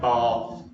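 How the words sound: The vowel is long, like the vowel in bar. The speaker is from the south. "if you're from the south ... sounds like you've got an R in it"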